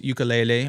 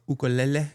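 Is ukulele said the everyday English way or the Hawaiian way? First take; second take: English way; Hawaiian way. First: It is said with the everyday English pronunciation. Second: It is said with the Hawaiian-style pronunciation.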